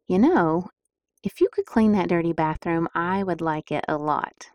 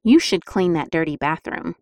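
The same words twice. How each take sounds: First: Sweet persuasive request; gentle request. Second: Bossy demand. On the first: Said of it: "would respond better to". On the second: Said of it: "which you think your family members would respond better to". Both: Shown as a demonstration.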